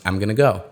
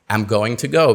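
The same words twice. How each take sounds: First: The words are reduced and sounds are dropped. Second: Every word is pronounced fully and carefully.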